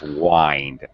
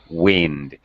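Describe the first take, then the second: First: The vowel is a long 'eye' sound. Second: The vowel is a short 'i' sound. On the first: It means to turn something around and around. "wind as a verb" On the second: It means moving air. "wind as a noun, it's pronounced with a short I"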